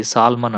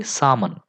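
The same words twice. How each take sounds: First: సాల్మన్ with the L pronounced; L sounded. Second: సామన్ with no L sound; long vowel straight into M in సామన్; silent L. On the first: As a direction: say సాల్మన్, voicing the L before M. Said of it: "చాలామంది సాల్మన్ అంటుంటారు". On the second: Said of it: "దీన్ని ఎలా పలకాలి". (సామన్, ఎల్ పలకకుండా) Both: Shown as a demonstration.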